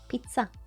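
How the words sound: The word is said with a Swedish pronunciation. "and in Swedish, it's um, pizza"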